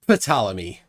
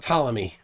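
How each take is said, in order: First: The initial P is clearly sounded. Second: The initial P is silent.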